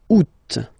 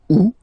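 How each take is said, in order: First: The word ends with a clear final T sound. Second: The word ends on the vowel, no final T. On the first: "Second option, you pronounce it" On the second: "first option, don't pronounce it"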